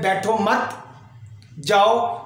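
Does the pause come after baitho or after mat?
after mat. There is a pause after mat.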